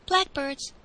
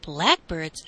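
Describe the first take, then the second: First: Lightly voiced boy, higher pitch; higher-pitched simple reply; boy's answer. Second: Astonished echo, swooping up from low; low start, startled swoop in pitch; surprised echo. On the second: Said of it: "echoed the servant in surprise". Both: A narrator's reading.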